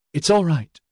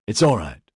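First: Higher-pitched, bravely encouraging; valiant reassurance. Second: Gently reassuring, in the usual register; soft reassurance. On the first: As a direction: put on courage for a companion. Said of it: "she said valiantly". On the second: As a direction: soothe a frightened companion without fuss. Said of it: "Inigo's soft voice reassured her". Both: A narrator's reading.

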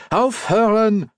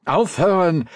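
First: Very high, drawn-out German command; slow, exasperated high-pitched order; demanding, escalated. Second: High, firm German command; first sharp demand, pitched up. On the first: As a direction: insist slowly that the dogs stop. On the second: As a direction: order the dogs to stop. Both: A narrator's reading. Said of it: "he demanded".

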